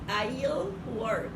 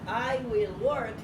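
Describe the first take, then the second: First: Will is contracted, with a clear final L. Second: The word will is said in full. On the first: "digo I'll, pero bien pronunciada la L" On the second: "en lugar de decir I will"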